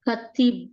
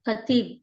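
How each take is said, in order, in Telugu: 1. మొదటి అచ్చు హ్రస్వం. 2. మొదటి అచ్చు హ్రస్వం.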